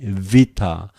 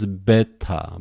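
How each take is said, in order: First: The word begins with a V sound. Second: The word begins with a B sound. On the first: This is how modern Greeks say it. "I prefer a modern way. Vita, that is V" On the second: This is how seminaries teach it. "In seminaries, they usually pronounce beta"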